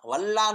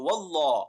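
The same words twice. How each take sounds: First: The l sound is thin and light. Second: The l sound is thick and heavy. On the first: The speaker calls it wrong. "नहीं पढ़ेंगे" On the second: The speaker calls it right. "बल्कि वल्लाह"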